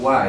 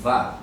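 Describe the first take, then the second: First: The syllable begins with a rounded W sound. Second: The syllable begins with a buzzing V sound. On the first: The speaker calls it wrong. "entonces no es wa" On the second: The speaker calls it right. "es va"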